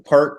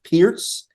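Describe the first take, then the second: First: The word sounds like 'perk'. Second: The word sounds like 'pierce'. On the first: "Like the perk P I R C" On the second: "is pronounced Pierce"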